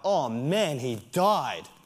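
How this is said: It is said in a joyful, excited tone. His death is a reason for joy.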